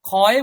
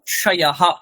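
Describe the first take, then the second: First: The cluster sounds like kh. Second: The cluster sounds like ksh. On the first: The speaker calls it wrong. "বলবো না" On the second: The speaker calls it right. "ক এবং মূর্ধন্য ষয়ের যে যুক্তাক্ষরের যে উচ্চারণ"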